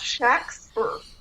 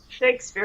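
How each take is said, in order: First: The first vowel is a short A sound. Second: The first vowel is a long A sound. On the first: This is the original way of saying the name. The speaker calls it right. "It was pronounced Shaxper. ... emphasize the short A" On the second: This is the modern way of saying the name. The speaker calls it wrong. "it wasn't pronounced like Shakespeare"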